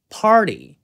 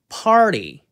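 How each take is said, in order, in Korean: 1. r 뒤의 t는 부드러운 탄설음으로 냅니다. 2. r 뒤의 t는 부드러운 탄설음으로 냅니다.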